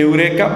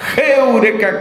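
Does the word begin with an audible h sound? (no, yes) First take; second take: no; yes. First: The word begins directly with the vowel. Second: The word begins with a breathy h sound. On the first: The speaker calls it wrong. "La gente dice eureka" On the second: The speaker calls it right. "me enseñaron que la pronunciación correcta era heureka"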